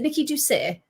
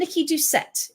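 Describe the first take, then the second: First: The surname is said the French way. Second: The surname is said the anglicized way. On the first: "Is it Nikki Doucet?" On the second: "I've been saying Nikki Doucette"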